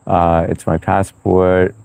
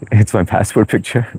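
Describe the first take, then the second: First: Drawn out slowly, deadpan. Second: Laughing through the words. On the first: Explaining his profile picture to Blue, slow and deadpan. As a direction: let each word hang slowly. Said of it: "Wait, hang on". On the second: Chuckling to Blue about his passport photo, laughing. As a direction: giggle as you say it. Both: Real, not acted.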